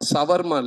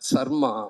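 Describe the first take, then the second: First: The name has an extra 'va' syllable inside. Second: The name is said with two short syllables. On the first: The speaker calls it wrong. "சவர்மா இல்ல" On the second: The speaker calls it right. "சர்மா அப்படித்தான் கூப்பிடுறேன்"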